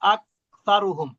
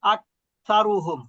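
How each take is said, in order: Both takes have the same delivery.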